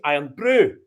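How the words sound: The stress falls on the second word. The speaker calls it right. "if the accent was in the brew, you'd say Iron Brew"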